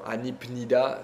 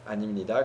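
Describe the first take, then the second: First: The consonant before 'nida' is a p sound. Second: The consonant before 'nida' is an m sound. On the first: The speaker calls it wrong. "Anipnida, c'est pas évident" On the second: The speaker calls it right. "ça devient animnida. Animnida, comme si c'était un M"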